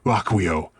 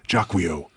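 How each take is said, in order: First: The name is pronounced the French way. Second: The name is pronounced the English way. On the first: The speaker calls it right. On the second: The speaker calls it wrong.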